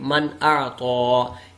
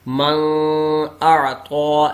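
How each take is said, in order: First: The n is short, with no held nasal hum. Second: The n is held with a nasal hum. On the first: The speaker calls it right. "इसको पढ़ेंगे" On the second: The speaker calls it wrong. "इस तरह पढ़ेंगे तो ये गलत होगा"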